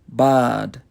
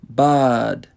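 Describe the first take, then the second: The two takes are said the same way.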